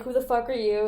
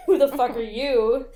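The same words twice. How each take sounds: First: Mild retold challenge; confrontational. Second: Louder mock-indignant retort; confrontational retort. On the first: Intruder to roommate in a beef, mildly confrontational. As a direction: ask it as a lightly acted challenge. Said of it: "they're having an, a beef because he's like". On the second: Roommate answering the intruder, louder indignant retort. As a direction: throw the challenge back louder. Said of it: "And she's like".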